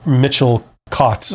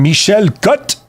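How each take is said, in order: First: The name is said with a plain English accent. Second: The name is said with a French accent. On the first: "I'm sure I pronounced that perfectly" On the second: "would you prefer it with a French accent?"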